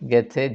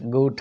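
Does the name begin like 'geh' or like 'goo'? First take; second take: geh; goo. First: The name is said as 'geh-theh'. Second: The name is said as 'goo-tteh'. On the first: This is how people in Kerala say it. "മലയാളികൾ കേരളത്തിലത് ഗെഥെ എന്നാണ് pronounce ചെയ്യുന്നത്" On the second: This is the German way of saying it. "German pronunciation ഞാൻ അറിയുന്നിടത്തോളം ഗൂട്ടെ എന്നാണ്"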